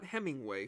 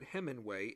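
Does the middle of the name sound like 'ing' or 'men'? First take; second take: ing; men. First: The middle syllable sounds like 'ing'. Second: The middle syllable sounds like 'men'. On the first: The speaker calls it wrong. "not Hemingway" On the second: The speaker calls it right. "but Hemingway, H-E-M-M-E-N-W-A-Y"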